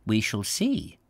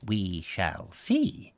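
First: A lightly voiced cryptic reply; enigmatic. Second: Slower, softer repeat of "We shall see"; slow enigmatic echo. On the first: Doctor answering the matron, mildly enigmatic. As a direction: keep the meaning to yourself. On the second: Doctor repeats his reply to the matron, slow and soft. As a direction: draw "We shall see" out slowly, softly, half to yourself. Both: A narrator's reading. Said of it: "Doctor Trump replied enigmatically".

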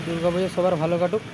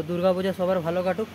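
The two takes are said the same way.

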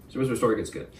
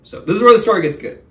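First: Said in the usual way. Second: Louder and higher, selling the twist; hyped-up teaser. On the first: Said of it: "repeats it in a normal voice". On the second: Shown as a demonstration. To viewers, a hyped teaser before the twist. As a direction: announce the good part with a big push. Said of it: "hypes the story's turning point".

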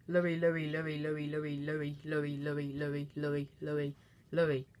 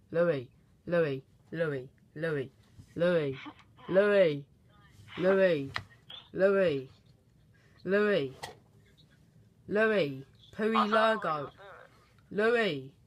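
First: The name rattled off fast on an even pitch; quick, monotone run of the same name; rapid-fire name repetition. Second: Spaced-out calls, each name falling; slow, pretending not to hear. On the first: Pretend. Prank caller repeats a friend's name, rapid-fire. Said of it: "I can either do it really fast". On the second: Prank caller pretends he can't hear his friend, calling slowly. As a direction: call the name slowly, growing louder. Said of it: "if I do it slow, like pretending I can't hear him".

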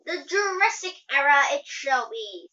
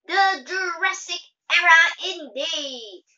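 First: Lightly voiced attendant, projected loudly. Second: High, loud and slow, haughty; high superior voice. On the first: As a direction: announce it like an attendant. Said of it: "sounding like, like a attendant". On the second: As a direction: declare it grandly as class president. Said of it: "in a high superior voice". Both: A narrator's reading.

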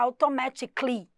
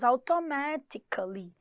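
First: AUTOMATICALLY squeezed to end in "-ticly"; automatically, ending jammed as "tic-lee"; run-together ending. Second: AUTOMATICALLY drawn out slowly, with the A before LY; slow, syllable-by-syllable automatically; linking A. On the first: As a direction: say automatically with no A before the LY. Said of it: "Ia ficar super estranho". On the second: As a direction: stretch automatically into "au-to-ma-ti-ca-lly". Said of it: "colocou um Azinho pra poder unir". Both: Shown as a demonstration.

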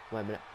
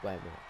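Both takes have the same delivery.

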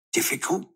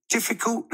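First: High rising disbelieving question; incredulous exclaim. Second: Even higher incredulous exclaim. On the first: Mum hears Dad call haircuts easy, incredulous. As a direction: echo the word in shock, pitch up. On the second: Mum repeats Dad's word back, higher still. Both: A narrator's reading. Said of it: "exclaimed Mum".

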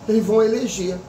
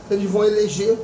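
The two takes are said the same way.

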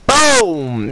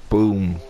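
First: Very high, loud victory yell; triumphant shout. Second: Said in the usual way. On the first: Real, not acted. Celebrating a kill, shouted take.

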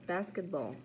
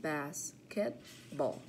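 First: Said in the usual way. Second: Basketball split into bas-ket-ball with gaps; syllable by syllable. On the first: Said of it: "practice our counting syllables". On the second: Shown as a demonstration. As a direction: count out three beats in Basketball. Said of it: "Three syllables".

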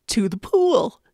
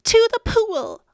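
First: Yelled. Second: Put-on loud, high boy's yell. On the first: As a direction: shout the order without raising the pitch. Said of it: "yelled the firemen". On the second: Boy echoes the firemen, high excited yell. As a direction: shout it back with the pitch jumped up. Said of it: "I yelled". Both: A narrator's reading.

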